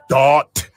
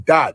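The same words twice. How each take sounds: First: The final T is released hard and crisp. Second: The final T is soft and barely released. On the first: "See that hard T I was telling y'all about?" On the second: "Most people just say dot"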